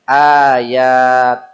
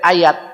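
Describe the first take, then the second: First: Both vowels are said long. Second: Both vowels are said short. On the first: This is how it is recited in the Quran. "dua-duanya panjang" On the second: This is the everyday Indonesian word. "Yang dibaca pendek"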